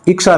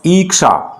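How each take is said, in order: First: The first vowel is a short i. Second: The first vowel is a long ee. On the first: The speaker calls it wrong. "इक्षा नहीं होता है" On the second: The speaker calls it right. "शुद्ध होता है ईक्षा"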